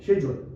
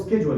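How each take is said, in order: First: It is said the British way, starting with 'sh'. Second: It is said the American way, starting with 'sk'.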